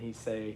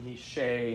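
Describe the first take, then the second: First: The word begins with an s sound. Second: The word begins with an sh sound. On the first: The speaker calls it right. "instead of he say" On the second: The speaker calls it wrong. "you make the sh sound instead of the sing"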